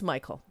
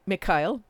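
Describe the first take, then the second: First: The name is said with an English pronunciation. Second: The name is said with a Slavic pronunciation. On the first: "but it's Michael" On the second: "the Slav in me wants to pronounce it Mikhail"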